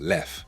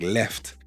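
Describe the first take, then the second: First: The word ends without any t sound. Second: The word ends with a clear t sound. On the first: "So the T is just dropped at the end" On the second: "a word like left"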